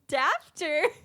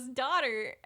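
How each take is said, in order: First: The vowel rhymes with 'laughter', with an f sound. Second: The vowel rhymes with 'water', no f sound. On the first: "words she learned to say incorrectly" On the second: "up pops the next word"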